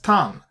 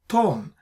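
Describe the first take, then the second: First: The vowel is an a sound. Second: The vowel is an o sound. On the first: The speaker calls it right. "we pronounced as Tan" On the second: The speaker calls it wrong. "not Ton"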